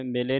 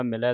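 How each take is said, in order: First: ਮਿਲੇ ending in a close 'ay'; single-lav ending. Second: ਮਿਲੈ ending in an open 'eh'; dulavan ending. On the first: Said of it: "ਨਹੀਂ ਪੜ੍ਹ ਦੇਣਾ". (ਮਿਲੇ ਇੱਕ ਲਾਂ ਨਾਲ) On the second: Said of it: "ਦਲਾਵਾਂ ਦੇ ਨਾਲ". (ਮਿਲੈ ਦਲਾਵਾਂ ਦੇ ਨਾਲ) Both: Shown as a demonstration.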